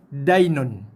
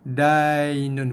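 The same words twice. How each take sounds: First: The 'ya' sound is firm, not softened. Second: The 'ya' sound is gentle and soft. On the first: The speaker calls it wrong. "bunyi yang sama tapi sifat yang salah" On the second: The speaker calls it right. "Kita bacakan dia dengan bunyi dainun"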